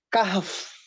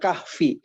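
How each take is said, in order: First: The word ends on a bare consonant. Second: The word ends with a full vowel sound. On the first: The reader stops here to breathe. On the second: The reading continues without stopping.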